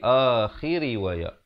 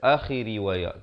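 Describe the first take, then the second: First: The long vowel is held for two counts. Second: The long vowel is cut short. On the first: The speaker calls it right. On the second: The speaker calls it wrong. "Jangan baca"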